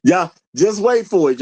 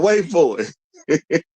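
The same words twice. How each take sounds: First: Said in the usual way. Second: Stretched out slowly with a rising end; slow, teasing wait for it; slow teasing drawl. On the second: Shown as a demonstration. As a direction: drag it out to tease the payoff. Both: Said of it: "teasing build-up".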